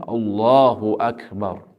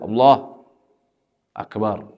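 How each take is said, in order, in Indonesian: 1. Kedua kata itu disambung tanpa jeda. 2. Kedua kata itu dipisahkan oleh jeda. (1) "dia harus menggabungkannya" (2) "tidak boleh dipisah"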